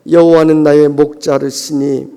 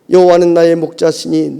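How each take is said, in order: First: The last word is said as 'mokjareusini'. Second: The last word is said as 'mokjasini'. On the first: The Lord cuts off my neck. The speaker calls it wrong. "발음도 잘 안 되니까" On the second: The Lord is my shepherd. The speaker calls it right. "시편 이십삼 편 읽으면서"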